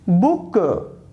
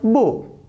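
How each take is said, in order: First: The final k is strongly released with a schwa. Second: The final k is soft, without an added vowel.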